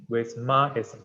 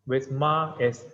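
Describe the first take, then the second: The two takes are said the same way.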